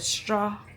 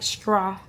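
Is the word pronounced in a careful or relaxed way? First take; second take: careful; relaxed. First: The word is said in a careful, standard way. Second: The word is said in a relaxed, casual way. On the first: This is how the speaker talks on camera. "instead of" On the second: This is how the speaker talks off camera. "more like relaxed with my voice"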